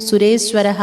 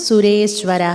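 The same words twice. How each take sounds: No difference in how they are said.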